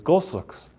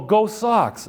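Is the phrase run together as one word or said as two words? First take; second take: one word; two words. First: The two words are run together as one. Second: The two words are said clearly apart. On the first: "us Bostonians will make it one" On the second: "it's two words"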